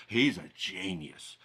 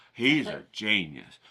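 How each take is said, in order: First: Hushed awe. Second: Said in the usual way. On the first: Acted. Mock awed art crowd.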